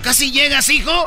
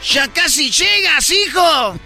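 First: It is said with a French accent. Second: It is said with an Argentine accent.

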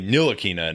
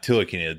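First: The name begins with an N sound. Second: The name begins with a T sound. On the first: The speaker calls it right. "It's actually Nilakina, The T is silent" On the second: The speaker calls it wrong. "not Tilakina. not the N"

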